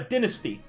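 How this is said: The word is said with a British pronunciation. "I'm Canadian, meaning that we use British English, so it's uh"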